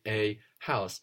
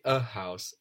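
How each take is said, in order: First: It is said slowly with a full, separate a. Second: It is said quickly with a reduced, linked a. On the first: "you pronounce it slowly" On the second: "more fluently"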